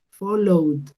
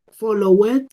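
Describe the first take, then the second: First: The ending is a D sound. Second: The ending is not a D sound. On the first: The speaker calls it right. "yo lo pronuncio con una D, yo digo followed" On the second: The speaker calls it wrong. "yo no puedo decir uh, followed"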